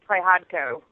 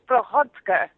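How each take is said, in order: First: The surname is said with simplified American sounds. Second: The surname is said with its original Ukrainian sounds. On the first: This is the simplified version used in America. "the American way" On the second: This is the family's original heritage pronunciation. "it's of Ukrainian descent, so it's pronounced Prichotko"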